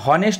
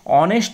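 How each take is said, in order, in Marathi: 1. हा शब्द h च्या आवाजाने सुरू होतो. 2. हा शब्द स्वराच्या आवाजाने सुरू होतो. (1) "हॉनेस्ट आपण म्हणत नाही" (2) "त्याला ऑनेस्ट म्हणतो"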